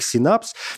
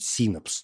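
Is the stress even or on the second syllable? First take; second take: second syllable; even. First: The stress falls on the second syllable. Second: The stress is spread evenly over both syllables. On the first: The speaker calls it wrong. "я ставлю ударение на букву «А» и произношу это как «синапс»" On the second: The speaker calls it right. "нужно стараться смазывать ударение, не ставить его ни на первый слог, ни на второй слог"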